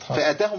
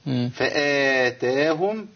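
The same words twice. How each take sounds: First: The first vowel after the fa is short. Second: The first vowel after the fa is long. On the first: God came to them. The speaker calls it wrong. "ده حذف حرف مد" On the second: God gave them. The speaker calls it right. "أعطاهم الثواب"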